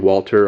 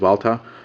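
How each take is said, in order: First: The name begins with an English W sound. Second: The name begins with a V sound. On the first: "I'll be pronouncing it that way" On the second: "the correct pronunciation of the name of this company is Walther"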